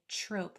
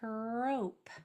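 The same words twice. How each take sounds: First: It begins with a CH-like sound. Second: It begins with a crisp, clear T sound. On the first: The speaker calls it wrong. "it would be kind of tempting to say trope, like we say tree or try or trick with that C H" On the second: The speaker calls it right. "articulate those sounds properly"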